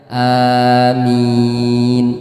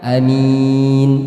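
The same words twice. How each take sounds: First: Both the first and second vowels are long. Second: The first vowel is short, the second long. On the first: Answer our prayer. "a dan minnya sama-sama panjang" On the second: Honest and trustworthy. "a-nya pendek, minnya panjang"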